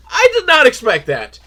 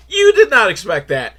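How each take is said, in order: First: "I" hit high and loud, then falling; stress on I. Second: "You" pushed loud and high, then falling; stress on You. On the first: Reviewer on his own shock at the movie, stress on "I". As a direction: punch the word "I", then step down. Contrasts himself with the viewer. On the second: Reviewer turning his shock on the viewer, stress on "You". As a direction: punch the word "You" at the listener. Turns the same words on viewer. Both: Real, not acted.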